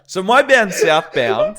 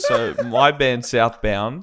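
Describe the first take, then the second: First: It is said in an excited way. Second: It is said in a flat, unexcited way.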